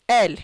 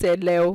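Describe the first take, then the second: First: The word is said with one syllable. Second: The word is said with two syllables. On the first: The speaker calls it right. "So l" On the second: The speaker calls it wrong. "don't pronounce it ele"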